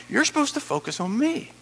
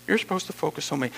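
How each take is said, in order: First: Higher-pitched, emphatic urging; insistent instruction. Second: Said in the usual way. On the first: Acted. Preacher voicing God redirecting a worrier, high and insistent. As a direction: press it home in a raised voice.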